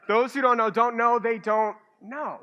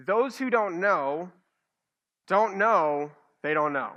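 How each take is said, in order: First: Louder, pushing it out as a tongue twister; a half-joking tongue twister, louder; mock tongue twister. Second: Drawn out with a pause between phrases; a slow, careful tongue twister; slow and deliberate. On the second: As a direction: lay it out slowly, phrase by phrase. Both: Shown as a demonstration. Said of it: "I'll just say this ten times fast".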